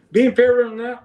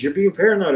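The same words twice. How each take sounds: First: High-pitched scoffing question; retold incredulous echo. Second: Higher-pitched mock reproach; retold accusation. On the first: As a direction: throw the accusation back, pitched well up. Throws friend's accusation back. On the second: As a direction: voice a friend brushing off your worry.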